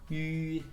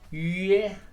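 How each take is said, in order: First: The vowel stays rounded until the sound ends. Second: The rounded vowel spreads before the sound ends. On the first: The speaker calls it right. "I stretched my lips after I finished the sound" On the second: The speaker calls it wrong. "instead of doing yeah"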